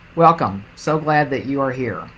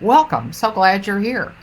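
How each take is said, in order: First: The greeting sounds cold and unwelcoming. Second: The greeting sounds warm and welcoming.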